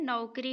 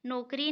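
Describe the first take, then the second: First: नौकरी as "nau-kri"; नौकरी with a clear au; correct au vowel. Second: नौकरी as "no-kri"; pure o at the start of नौकरी; नौकरी without the au glide; wrong o vowel. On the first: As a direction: glide from a to u in नौकरी. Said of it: "औ की मात्रा लगेगा". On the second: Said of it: "नहीं होता है". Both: Shown as a demonstration.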